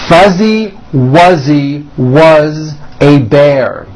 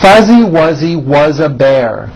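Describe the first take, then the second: First: The sentence is spoken at a slow pace. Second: The sentence is spoken at a faster pace. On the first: "I will give them to you both slowly" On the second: "the same thing a little bit faster"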